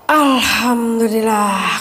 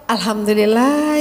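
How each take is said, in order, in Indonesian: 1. Terdengar lega, seperti beban akhirnya terlepas. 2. Terdengar bersyukur, seperti ucapan terima kasih yang tulus. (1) "kelar juga tiga puluh hari ini" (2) "ya Allah masih ada umur sampai tiga puluh hari"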